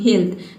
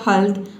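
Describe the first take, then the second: First: The vowel is said as a long ee. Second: The vowel is said as a short uh. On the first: "तीसरा pronunciation क्या है ई" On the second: "फिर आपने pronounce किया हेल्थ"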